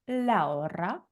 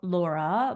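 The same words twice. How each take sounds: First: The R is rolled with a trill. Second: The R is a plain, unrolled English R. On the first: The speaker calls it right. "it's pronounced Laura. Roll your R's" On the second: The speaker calls it wrong. "her name says Lau- Laura"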